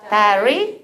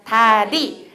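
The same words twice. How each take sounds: First: 다리 with an English gliding r; English pronunciation. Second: 다리 with a tapped Korean ㄹ; Korean pronunciation. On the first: Teacher leading trainees' drill, 다리 with English r. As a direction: say 다리 as in English, no tap. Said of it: "영어 한 번, 한국어 한 번". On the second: Teacher leading trainees' drill, 다리 with Korean tap. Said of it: "우리 한국어". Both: Shown as a demonstration.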